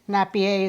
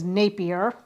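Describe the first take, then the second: First: The name is given a French-style pronunciation. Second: The name is given a plain English pronunciation. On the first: The speaker calls it wrong. "is what I called him. I mispronounced his last name" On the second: The speaker calls it right. "So his last name is Napier"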